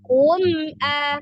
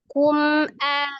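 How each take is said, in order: First: The pitch lifts, then drops hard on the m. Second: The pitch stays level across both syllables. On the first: The speaker calls it wrong. "jangan kum a" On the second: The speaker calls it right. "coba kum a, gitu aja biasa aja"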